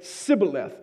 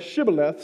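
First: The word begins with an s sound. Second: The word begins with an sh sound. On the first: The speaker is an outsider to the group. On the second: The speaker is one of the group.

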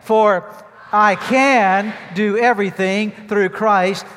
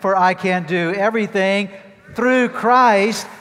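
First: The words "I can" are said loudest. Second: The words "through Christ" are said loudest. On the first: "I want you to say those two words as loudly as you can" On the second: "there are two other words I want you to emphasize and say as loudly as possible. The words are through Christ"

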